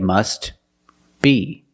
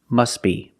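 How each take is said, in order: First: The words are separated and the T is pronounced. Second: The words are linked and the T is silent. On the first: "If you separate the words and you pause between words, then you could say must be" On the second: "But if you link the words, you pronounce it must be"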